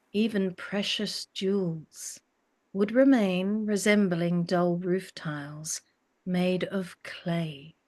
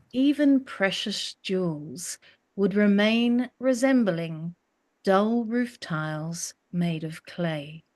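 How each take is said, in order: The two takes are said the same way.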